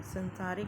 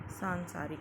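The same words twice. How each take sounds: First: "संसारिक" with short a in the first syllable; short first vowel on "संसारिक"; mispronounced short vowel. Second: "सांसारिक" with long aa first; long nasal first vowel on "सांसारिक"; correct long vowel. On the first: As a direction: say "संसारिक" starting sun-, not saan-. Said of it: "नहीं होता है". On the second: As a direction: open "सांसारिक" on a drawn saan-. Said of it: "होता है". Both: Shown as a demonstration.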